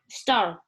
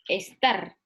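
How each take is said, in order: First: It is said with an English accent. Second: It is said with a Spanish accent, adding an e.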